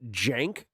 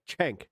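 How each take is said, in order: First: The name begins with a j sound. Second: The name begins with a ch sound. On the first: "like with a J or like a G. I don't think that's right either" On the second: "like Ch, without the with"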